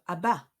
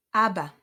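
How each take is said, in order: First: "abba" wrongly stressed on BA; ab-BA, weight on the end of "abba"; stress on second syllable. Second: "Abba" with a strong AB; AB-ba, first syllable loud, then falling; stress on first syllable. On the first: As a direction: punch the last syllable of "abba". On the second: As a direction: punch the start of "Abba". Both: Shown as a demonstration. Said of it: "instead of abba".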